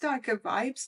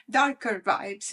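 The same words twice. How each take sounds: First: Said in the usual way. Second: Slow, leaning hard on "darker"; "darker" stretched and stressed, vibes trailing. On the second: Real, not acted. Vlogger owning up to the deck's dark mood, slow and stressed. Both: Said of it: "darker vibes, if I have to be honest".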